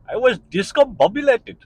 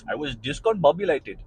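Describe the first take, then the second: First: Put-on playful Indian accent, pitched up high and loud. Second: Said in the usual way. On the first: To his listeners, savouring the word in an Indian accent. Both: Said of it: "I need to be an Indian person to say that".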